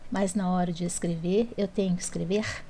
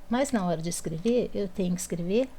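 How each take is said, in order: No difference in how they are said.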